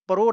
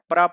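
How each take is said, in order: First: The syllable is said with an 'o' vowel. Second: The syllable is said with an 'a' vowel. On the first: The speaker calls it wrong. "प्रो नहीं पढ़ना है" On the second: The speaker calls it right. "प्रा पढ़ना है"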